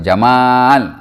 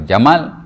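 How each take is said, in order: First: The second vowel is long. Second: The second vowel is short. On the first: It means beauty. "ada mat, maksudnya cantik" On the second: It means camel. "kalau Jamal, unta"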